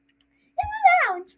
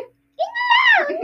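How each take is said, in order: First: It is said in a more normal voice. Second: It is said in an exaggerated put-on voice.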